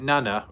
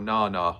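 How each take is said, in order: First: The vowels do not sound like those in banana. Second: The vowels sound like those in banana. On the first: "Is it Nana" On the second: "like banana?"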